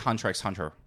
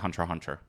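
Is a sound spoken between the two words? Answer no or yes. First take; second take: yes; no. First: The letter X is spoken between both words. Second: The two words are said with nothing between. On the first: "I say Hunter x Hunter" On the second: "people say Hunter Hunter"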